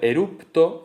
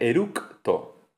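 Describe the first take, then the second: First: A p sound comes before the t. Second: A k sound comes before the t. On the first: "se transforma en el sonido P" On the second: "en vez de"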